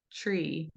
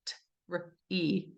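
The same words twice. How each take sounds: First: "tree" as one smooth word, slow and soft; connected tree. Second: "t, r, e" as three separate sounds with gaps; sounds split apart. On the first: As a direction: glide through "tree" without stopping the air. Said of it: "We say tree". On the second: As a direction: sound out "t", "r", "e" one by one. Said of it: "It's not like we go". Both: Shown as a demonstration.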